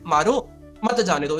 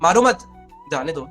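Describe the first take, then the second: First: There is a pause after the first word. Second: There is a pause after the second word.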